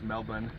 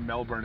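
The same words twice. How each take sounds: First: The R sound is dropped. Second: The R sound is clearly pronounced. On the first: The speaker calls it right. "They don't pronounce the R's" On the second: The speaker calls it wrong. "It's not Melbourne"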